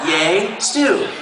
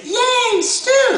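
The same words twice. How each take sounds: First: Slight rise on stew; lightly voiced cheer. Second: Al cheering. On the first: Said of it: "That's what it says right there". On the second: Retold or imitated. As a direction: squeal it like the script says. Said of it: "She was gonna say".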